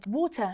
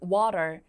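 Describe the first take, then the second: First: It is said with a British accent. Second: It is said with an American accent. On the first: "영국에서는 발음 어떻게 한다? ... 이런 발음" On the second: "미국식으로 발음하면"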